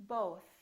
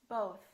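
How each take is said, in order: Both takes have the same delivery.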